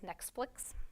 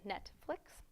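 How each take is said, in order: First: An extra k sound comes before 'flix'. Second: No extra sound comes before 'flix'. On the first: The speaker calls it wrong. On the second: The speaker calls it right.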